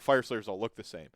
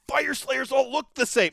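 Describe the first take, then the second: First: It is said in a disgusted, negative tone. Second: It is said in an excited, positive tone. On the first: The sameness is a bad thing. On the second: The sameness is a good thing. "Like you can be excited about"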